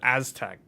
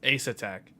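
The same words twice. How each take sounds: First: It is said like the tribe name. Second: It is not said like the tribe name. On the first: This is how the other presenter said it. The speaker calls it wrong. "He just pronounced it Aztec, like the Aztecs" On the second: This is the expected pronunciation. The speaker calls it right. "I thought it's pronounced Aztec"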